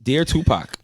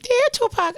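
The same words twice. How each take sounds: First: It is said in his normal adult voice. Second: It is said in a put-on child's voice.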